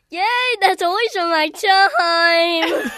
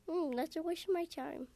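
First: It is said in a very happy tone. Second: It is said in a pouty, upset tone.

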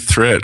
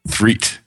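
First: The vowel is a short e sound. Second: The vowel is a long ee sound. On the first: The speaker calls it wrong. "I was saying threat" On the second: The speaker calls it right. "I'll say it correctly now"

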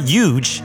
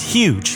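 First: The word begins with a Y sound. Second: The word begins with an H sound. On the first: The speaker calls it wrong. "It's not huge" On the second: The speaker calls it right. "because it's an H"

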